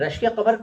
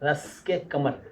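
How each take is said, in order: First: The first word starts with a 'sh' sound. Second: The first word starts with an 's' sound. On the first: The speaker calls it right. "ये रश्के कमर कल बता दिया गया था" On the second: The speaker calls it wrong. "अगर रस के कमर कर दें तो बड़ा हास्यास्पद हो जाता है"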